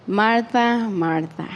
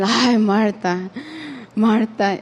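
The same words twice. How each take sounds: First: Loving and gentle. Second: Said in the usual way. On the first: Retold or imitated. Jesus tenderly calling Martha by name. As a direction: say her name gently, letting it fall away. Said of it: "so loving and gentle". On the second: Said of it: "he wasn't".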